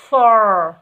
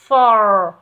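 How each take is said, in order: No difference in how they are said.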